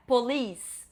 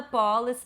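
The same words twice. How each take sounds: First: Police stressed at the end, po-LEECE; correct pronunciation. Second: Police stressed on the first syllable, PO-lice; wrong pronunciation. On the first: Teacher modelling police, po-LEECE. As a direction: land the stress late in police. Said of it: "é police". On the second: Teacher imitating students, police stressed up front. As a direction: misplace the stress, police as POL-is. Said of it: "não é police". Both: Shown as a demonstration.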